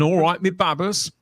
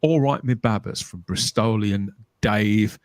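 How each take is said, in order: First: A light, higher-pitched stab at Bristolian; attempted Bristol accent. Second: Slow, lower stab at Bristolian; retry a Bristol accent, drawn out slowly; attempted Bristol accent. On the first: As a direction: have an unsure go at a Bristol accent. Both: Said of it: "I can't do that accent".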